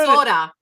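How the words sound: It is said in a Minnesota accent.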